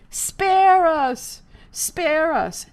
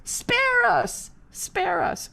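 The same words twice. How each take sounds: First: High loud chanted jeer; mock chant. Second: Second mock chant. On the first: Crowd up in the rafters, loud mocking chant. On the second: Second heckler across the hall, fading mocking chant. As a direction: chant it, then let it drop away. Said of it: "another voice on the other side started".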